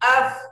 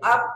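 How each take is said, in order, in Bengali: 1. এটি অবিচ্ছিন্ন বাতাস প্রবাহের f ধ্বনি দিয়ে শেষ হয়। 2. এটি বন্ধ p ধ্বনি দিয়ে শেষ হয়। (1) "ফা- বাতাস চালু থাকবে" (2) "আপ না"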